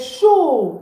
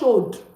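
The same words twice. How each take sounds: First: The word ends on the vowel, no d sound. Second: The word ends with an audible d sound. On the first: The speaker calls it right. "The weather is hot. Il fait chaud" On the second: The speaker calls it wrong. "Not chaud. The D, don't pronounce it"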